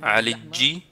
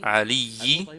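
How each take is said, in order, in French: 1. La consonne du milieu est un son j. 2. La consonne du milieu est un son y. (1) "il a dit « Alidji »" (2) "Il veut dire « Aliyi »"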